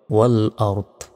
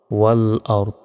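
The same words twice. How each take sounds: First: ওয়াল আরদ with the final দ silent and stopped; pausal form. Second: ওয়াল আরদ again, final দ without a vowel; pausal form. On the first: Teacher showing how to stop at the word, sukun ending. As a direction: end ওয়াল আরদ on a clipped, unvowelled দ. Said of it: "যদি আমরা ওয়াকফা করি বা থামি". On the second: Teacher repeating the stop form for students. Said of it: "শেষ অক্ষরে সাকিন দিয়ে". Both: Shown as a demonstration.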